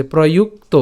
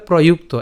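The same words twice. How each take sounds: First: প্রযুক্ত with "proyuk" and "to" set apart; shown in parts. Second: প্রযুক্ত as one joined word, "proyukto"; said together. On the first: Teacher shows learners the parts, প্রযুক্ত slightly divided. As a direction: separate the final "to" of প্রযুক্ত. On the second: Teacher joins the parts for learners, প্রযুক্ত as one word. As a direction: run প্রযুক্ত together without a break. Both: Shown as a demonstration. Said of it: "একসাথে উচ্চারণ করলে".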